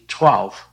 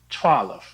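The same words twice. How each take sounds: First: The L runs straight into the F. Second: A short vowel sounds between the L and F.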